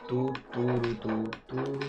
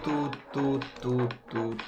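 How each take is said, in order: No difference in how they are said.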